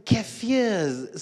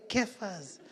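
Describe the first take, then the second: First: "Kafirs" drawn out with an ee-uh ending; "Kafirs" set apart after a pause, ending -ee-uhz; careful corrected pronunciation. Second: "Kaffers" said in two syllables, ending in a plain -ers; "Kaffers" with no ee sound before the ending; two-syllable pronunciation. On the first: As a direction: say "Kafirs" slowly as KAF-ee-uhz. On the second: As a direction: say "Kaffers" as KAF-uhz. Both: Retold or imitated. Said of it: "some nuts called Kafirs".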